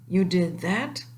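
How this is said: It is said in an amazed tone.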